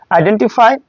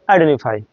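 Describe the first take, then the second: First: Said in the usual way. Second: আইডেন্টিফাই with no T, idenifai; dropped T. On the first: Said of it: "omit হয়ে". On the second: Shown as a demonstration. Teacher contrasting আইডেন্টিফাই with the T dropped. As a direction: swallow the T in আইডেন্টিফাই. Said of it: "omit হয়ে যাচ্ছে এমনভাবে যে".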